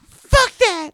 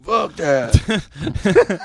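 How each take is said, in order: First: Very high, loud screech; bad singer imitation. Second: High, drawn-out imitation; corrected singer imitation. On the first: Mocking an absent singer, very high screeched imitation. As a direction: screech it as an over-the-top imitation. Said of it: "He doesn't even sound like that". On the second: Showing how the singer really sounds, high drawn-out imitation. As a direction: stretch it out in a high put-on voice. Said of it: "He's like".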